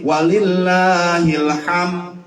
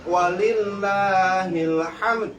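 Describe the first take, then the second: First: It ends without any final d sound. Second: It ends with a clear final d sound. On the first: The speaker calls it wrong. "tanpa dal" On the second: The speaker calls it right. "Ada ada dal di ujungnya ya"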